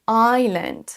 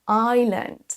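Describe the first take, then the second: No difference in how they are said.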